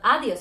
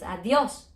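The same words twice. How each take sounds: First: The stress is on the first syllable. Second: The stress is on the last syllable. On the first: The speaker calls it wrong. "So it should be adiós, but it's not adiós" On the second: The speaker calls it right. "it's adiós. So we're broken the rule"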